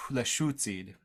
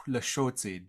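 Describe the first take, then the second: First: Northern dialect accent with a clear "oo" vowel; Northern Lushootseed accent. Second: Southern Lushootseed accent. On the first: Teacher demonstrating the other dialect, Northern accent. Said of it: "gonna do a Northern accent right now". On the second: Language teacher slipping into their own dialect, Southern accent. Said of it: "can't get over my Southern accent". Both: Shown as a demonstration.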